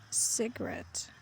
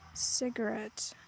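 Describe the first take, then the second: The two takes are said the same way.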